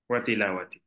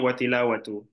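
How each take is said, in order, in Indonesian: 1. Kata ini berakhir dengan vokal 'i'. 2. Kata ini berakhir dengan vokal 'u'. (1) "Yang benar apa?" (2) "Kenapa bacanya watilawatu? Ya, salah ya"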